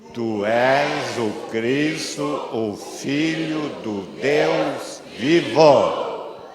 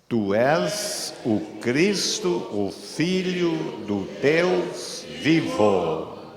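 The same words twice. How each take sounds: First: It is said louder and more forcefully. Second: It is said at normal, softer volume.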